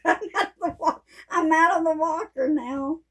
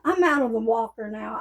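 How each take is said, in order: First: Higher, beaming, rising at the end; gleeful repeat. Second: Said in the usual way. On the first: Real, not acted. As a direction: crow about it happily. Repeats news with glee.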